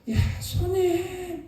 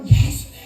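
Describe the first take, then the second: First: It is said in a weak, strained voice. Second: It is said in a loud, strong voice.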